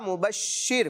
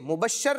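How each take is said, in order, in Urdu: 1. تشدید والے ش کے بعد 'i' ہے۔ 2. تشدید والے ش کے بعد 'a' ہے۔ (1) "شین پر تشدید آئے گی اور پڑھا جائے گا مبشر" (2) "مبشر نہیں"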